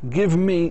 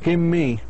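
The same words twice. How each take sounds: First: Both words are said fully and separately. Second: The words blend into one reduced form.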